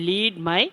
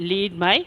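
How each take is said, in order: The two takes are said the same way.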